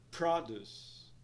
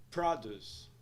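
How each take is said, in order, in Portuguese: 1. A ênfase está na primeira sílaba. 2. A ênfase está na primeira sílaba.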